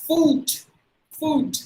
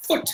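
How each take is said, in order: First: Foot said like "foot" with a long oo, as in boot; higher, long-vowelled foot; wrong long vowel. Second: Foot with a very short u; brief oo in Foot; short vowel. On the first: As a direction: stretch the oo in foot, pitched high. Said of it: "That's not the way". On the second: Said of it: "we must say with a short sound". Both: Shown as a demonstration.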